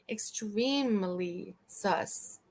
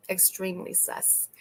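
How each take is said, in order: First: "Extremely" stretched very slowly, each syllable weighted; drawn-out emphasis. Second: Said in the usual way. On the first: Shown as a demonstration. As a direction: linger on "Extremely" before landing on "sus".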